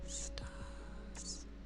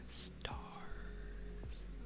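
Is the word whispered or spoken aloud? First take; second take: whispered; whispered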